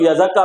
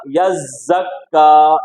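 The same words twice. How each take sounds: First: यज़क्का quick, with a short single z; wrong undoubled reading. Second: यज़्ज़क्का slow, long buzzing zz and held kk; correct doubled reading. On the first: Teacher imitates students' mistake, quick undoubled reading. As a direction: rush through यज़क्का without holding the z. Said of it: "कुछ लोग यज़क्का पढ़ते हैं". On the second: Teacher corrects the student's mistake, slow doubled recitation. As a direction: stretch यज़्ज़क्का, leaning on both doubled consonants. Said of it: "क्या होगा?". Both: Shown as a demonstration.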